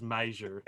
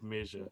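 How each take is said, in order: First: "measure" with the first vowel as in "may"; accented "measure". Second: Said in the usual way. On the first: Shown as a demonstration. Host showing how the film line says "measure", as MAY-zher. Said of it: "It says measure instead of measure". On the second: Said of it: "instead of measure".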